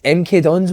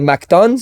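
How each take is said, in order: First: The letters M and K are spelled out separately. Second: The letters M K blend into 'Mac'. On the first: This is the real name. The speaker calls it right. "mate, it's M K Dons, man" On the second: Someone else got the name wrong. The speaker calls it wrong. "Cano used to call M K Dons MacDons"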